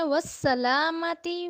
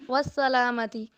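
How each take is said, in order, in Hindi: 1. s की आवाज़ साफ़ है, सीटी जैसी हिस्स के साथ। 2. s की आवाज़ कमज़ोर है, मुश्किल से हिस्स सुनाई देती है। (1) "हमने सीन को अदा करना है" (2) "इसको हम ऐसे नहीं पढ़ेंगे वस्सलामती, सीन अदा ही नहीं होगा"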